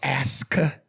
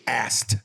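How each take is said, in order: First: The word ends with a k sound. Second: The word ends with a t sound. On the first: "I know it's Aska" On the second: "she would always say ast, A S T"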